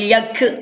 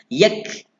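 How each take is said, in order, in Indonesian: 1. K akhir dilepas dengan letupan bersuara. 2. K akhir dilepas dengan udara saja. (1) "Kalau percikan suara, wal yak ke itu percikan suara" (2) "percikan angin. Yak, yak, ha, angin saja"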